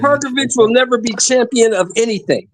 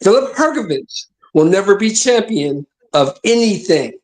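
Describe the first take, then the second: First: It is said at a normal, quicker pace. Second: It is said slowly and deliberately.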